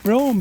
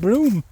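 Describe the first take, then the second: First: The name is said as it is spelled. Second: The name sounds like the word broom. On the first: The speaker calls it wrong. "as I thought, ... was pronounced Brougham" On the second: The speaker calls it right. "apparently it's pronounced Broom"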